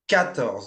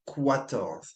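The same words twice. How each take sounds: First: It begins with a plain k sound. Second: It begins with a kw sound. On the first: The speaker calls it right. "It's quatorze" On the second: The speaker calls it wrong. "Not quatorze"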